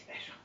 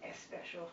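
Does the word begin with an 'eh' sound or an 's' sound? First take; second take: s sound; eh sound. First: The word starts directly with the s sound. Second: An extra 'eh' vowel comes before the s. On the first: The speaker calls it right. "the end result hopefully would be that he can say special" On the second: The speaker calls it wrong. "right now he's doing S special"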